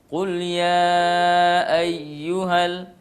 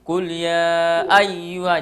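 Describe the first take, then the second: First: The stress falls on the second syllable, yu. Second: The stress falls on the first syllable, ay. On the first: The speaker calls it right. "padahal yang harus ditekan di situ adalah ya" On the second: The speaker calls it wrong. "tekanannya di A, jadi kul ya ayyuha, jadi ay terangkat suaranya di A"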